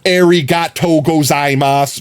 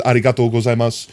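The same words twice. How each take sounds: First: "Arigato gozaimasu" with hard American r; anglicized Japanese thanks; American accent. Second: Quick "Arigato gozaimasu" with tapped r; attempted native Japanese thanks; Japanese accent. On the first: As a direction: say it like a tourist. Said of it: "I did both of those terribly". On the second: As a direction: try to sound Japanese. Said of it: "both terrible still". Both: Shown as a demonstration.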